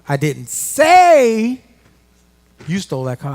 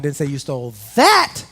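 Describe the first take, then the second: First: The word 'say' is stressed. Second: The word 'that' is stressed.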